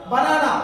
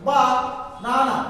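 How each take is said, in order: First: Said in the usual way. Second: "Ba-nana" slowly broken after "Ba"; split by syllable. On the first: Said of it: "stress marks fall in this particular". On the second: Shown as a demonstration. Teacher isolating syllables for learners, "Ba-nana" slow and divided. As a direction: stretch "Ba", pause, then "nana". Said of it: "the syllable, which syllable?".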